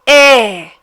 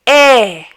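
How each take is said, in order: First: The vowel is open, with the mouth wide. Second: The same.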